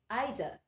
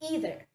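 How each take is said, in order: First: It is said the British way. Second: It is said the American way. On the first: "While in the British English, it is pronounced as either" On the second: "In American English, it is pronounced as either"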